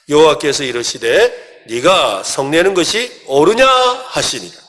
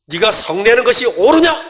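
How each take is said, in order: First: Slow, even reading of the verse together; group scripture reading. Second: Higher and louder, a stern shouted 옳으냐 with a rising end; angry rebuke. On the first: Real, not acted. Pastor leading the congregation in a slow, even verse reading. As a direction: read the verse aloud slowly. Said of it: "같이 한번 읽겠습니다". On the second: Shown as a demonstration. God shouting an angry rebuke at the angry Jonah. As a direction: thunder it at Jonah as a furious God. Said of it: "그냥 읽으면 화를 내시는 것처럼 들리죠".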